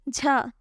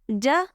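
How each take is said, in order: First: The j is made with the tongue edge. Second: The j is made with the tongue middle. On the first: The speaker calls it wrong. "When you will touch the edge of the tongue, you say jha" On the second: The speaker calls it right. "Touch the middle of the tongue and say ja"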